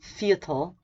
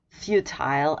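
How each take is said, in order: First: It is said with an American pronunciation. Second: It is said with a British pronunciation. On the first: "in red American" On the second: "the first one is British"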